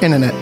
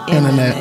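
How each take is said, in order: First: The word is said quickly. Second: The word is said slowly. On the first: "Don't say it so fast" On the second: "Slow it down"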